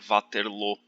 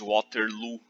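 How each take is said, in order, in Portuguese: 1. O nome é pronunciado do jeito francês. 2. O nome é pronunciado do jeito inglês. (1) "A pronúncia correta do nome da cidade é" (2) "que é como os ingleses pronunciam o nome"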